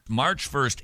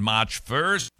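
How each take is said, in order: First: Said in the usual way. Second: Slight Boston accent on "March first". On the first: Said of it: "I don't know why I'm talking". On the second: Real, not acted. Host announcing a booklet's release date, slight Boston accent. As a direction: slip lightly into a Boston accent. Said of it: "talking like I'm suddenly from Boston".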